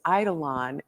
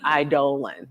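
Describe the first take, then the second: First: The ending does not sound like 'colon'. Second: The ending sounds like 'colon'. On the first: This is how the speaker hears it in her head. The speaker calls it wrong. "I always think of it as eidolon" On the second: This is the standard pronunciation. The speaker calls it right. "think colon"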